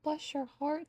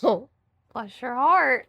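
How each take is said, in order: First: It is said with real sympathy. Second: It is said with mocking disapproval.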